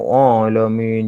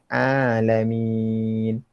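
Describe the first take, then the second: First: The vowel is said with thick, rounded lips. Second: The vowel is said without rounding the lips. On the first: The speaker calls it wrong. "dia gemuk mulut dia tu. Alamin macam tu. Pun salah juga" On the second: The speaker calls it right.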